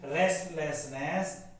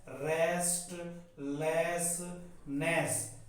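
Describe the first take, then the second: First: Said in the usual way. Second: "restlessness" very slowly as rest, less, ness; dictation-slow "restlessness", piece by piece; syllable by syllable. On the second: Shown as a demonstration. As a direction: break "restlessness" into three parts with pauses. Teacher breaks word into syllables.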